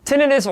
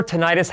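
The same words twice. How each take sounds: First: "Tinnitus" stressed on the first syllable, TIN-ih-tus. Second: "tinnitus" stressed on the second syllable, tih-NYE-tus; alternative pronunciation. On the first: Presenter offering both pronunciations to viewers, "Tinnitus" as TIN-ih-tus. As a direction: say "Tinnitus" as TIN-ih-tus, short middle vowel. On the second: Presenter offering both pronunciations to viewers, "tinnitus" as tih-NYE-tus. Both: Shown as a demonstration. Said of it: "however you want to pronounce it".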